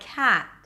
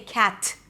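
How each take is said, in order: First: The final T is light and hardly released. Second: The final T is strong and clearly popped. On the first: "a light, hardly released T" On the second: "I don't say cat"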